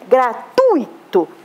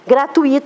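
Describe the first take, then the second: First: The u and i are joined in one syllable. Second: The u and i are split into two syllables. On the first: The speaker calls it right. "Juntinho. ... Então eu não tenho hiato, eu tenho ditongo" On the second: The speaker calls it wrong. "a pessoa fez um hiato"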